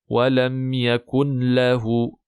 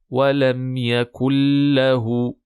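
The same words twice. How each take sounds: First: The n sound is pronounced before the l. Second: The n sound merges into the following l. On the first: The speaker calls it wrong. "attention à ne pas prononcer" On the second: The speaker calls it right. "le noun disparaît phonétiquement"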